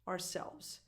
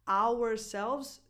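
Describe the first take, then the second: First: The first half is reduced to a plain R sound. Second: The first half is fully pronounced like hour. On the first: The speaker calls it right. "the first half of the word is just an R" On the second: The speaker calls it wrong. "is too much"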